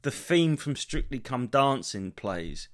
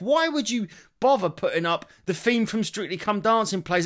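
First: Slow, deadpan caption read "The theme from Strictly Come Dancing plays"; subtitle read out. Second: High, louder incredulous "Strictly Come Dancing plays"; mock "Strictly Come Dancing plays" in disbelief; exasperated. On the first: Retold or imitated. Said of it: "It said". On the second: Real, not acted. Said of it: "So to someone who's deaf".

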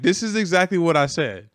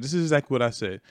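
First: Higher, louder insistence; indignant insistence. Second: Said in the usual way. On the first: Retold or imitated. Driver to his boss, insisting loudly this is what he said. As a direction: push it out, defending yourself. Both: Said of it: "I'm like".

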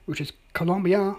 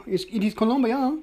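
First: Said in the usual way. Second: Put-on Colombia said with a playful, higher Colombian accent. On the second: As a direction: roll out Colombia the Colombian way, tongue in cheek. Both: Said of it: "that's my Colombian accent".

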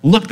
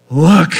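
First: Said in the usual way. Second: Exclaimed. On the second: A narrator's reading. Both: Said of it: "the man exclaimed".

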